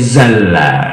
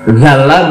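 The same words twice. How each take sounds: First: The word begins with a 'z' sound. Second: The word begins with a 'dh' sound. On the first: This is the local dialect form. "menjadi zalla" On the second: This is the standard classical form. "watarotan bizai"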